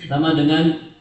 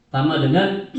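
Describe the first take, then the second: Both takes have the same delivery.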